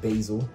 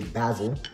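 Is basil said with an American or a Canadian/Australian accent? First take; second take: American; Canadian/Australian. First: It is said the American way. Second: It is said the Canadian/Australian way.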